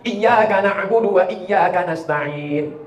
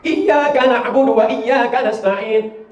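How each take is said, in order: First: Iyyaka with a doubled, held yy, not iya. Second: Iyyaka na'budu chanted slowly; slow recitation. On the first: Preacher modelling the shadda, slow. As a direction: press the yy. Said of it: "Iyyaka, bukan iya". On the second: Preacher reciting the verse, slow. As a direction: recite it with care. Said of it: "Kesalahan orang satu". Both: Shown as a demonstration.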